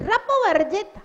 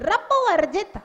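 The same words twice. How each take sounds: No difference in how they are said.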